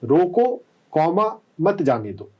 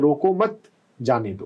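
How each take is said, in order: First: The pause comes right after 'roko'. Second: The pause comes right after 'mat'. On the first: Stop, and do not let them go. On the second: Do not stop them, let them go. "Comma कहां पे लगाया नहीं ध्यान दिया तो ये हो जाएगा"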